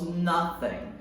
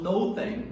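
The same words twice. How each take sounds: First: The first syllable sounds like "nuh". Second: The first syllable sounds like "no". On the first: The speaker calls it right. "nós falamos nothing. Então ele tem uma ideia de um som de na" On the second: The speaker calls it wrong. "ao invés de falarmos nothing"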